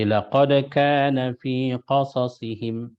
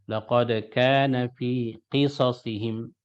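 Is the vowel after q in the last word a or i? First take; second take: a; i. First: The vowel after q is an a sound. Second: The vowel after q is an i sound. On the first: "boleh qafnya difathahkan" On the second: "boleh qafnya dikasrahkan"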